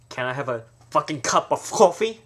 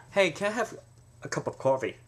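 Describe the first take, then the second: First: Coffee demanded, louder, fucking punched; rude, forceful coffee order; louder demanding. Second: Said in the usual way. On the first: Shown as a demonstration. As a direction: order it like a threat. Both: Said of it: "you hear the difference".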